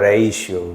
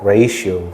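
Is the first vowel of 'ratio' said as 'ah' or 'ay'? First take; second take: ay; ay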